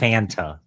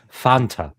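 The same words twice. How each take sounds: First: The word has American English vowels. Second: The word has Spanish-style vowels. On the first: The speaker calls it wrong. "not Fanta. Gringos" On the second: The speaker calls it right. "it is Fanta"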